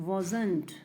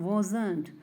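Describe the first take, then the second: Both takes have the same delivery.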